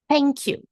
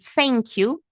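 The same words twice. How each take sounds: First: It begins with a soft th sound. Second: It begins with an f sound. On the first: "Vou colocar a língua entre os dentes, ... vou assoprar sem fazer som na garganta" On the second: "pode falar com som de F?"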